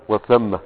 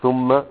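First: "وثم" with a after th, wa-thamma; fatha on tha. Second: "ثم" with u after th, thumma; damma on tha. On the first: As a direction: slowly say "وثم" as wa-THAM-ma. ("وثم" بفتح الثاء) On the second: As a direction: slowly say "ثم" as THUM-ma. ("ثم" بضم الثاء) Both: Shown as a demonstration. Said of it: "لابد أن نفرق بين".

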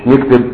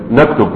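First: نكتب said as nikteb with a kasra on the n; colloquial form. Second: نكتب said as naktub with an open first n; correct classical form. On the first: Teacher to students, showing the colloquial nikteb to avoid. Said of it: "مش نكتب". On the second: Teacher to students, showing the correct naktub carefully. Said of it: "اللغة الصحيحة أن تقول نكتب". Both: Shown as a demonstration.

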